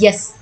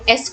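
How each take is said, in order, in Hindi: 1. इसकी शुरुआत में एक अतिरिक्त y ध्वनि होती है। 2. इसकी शुरुआत एक सादे स्वर से होती है। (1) "यस की तरह उसको बोलते हैं" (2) "एस को क्या बोलते हैं"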